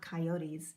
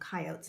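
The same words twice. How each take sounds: First: It is said a non-Western way. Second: It is said the Western regional way. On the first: This is how people elsewhere name the animal. "not coyotes" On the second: This is how people in the West name the animal. "out in the West. We call them coyotes"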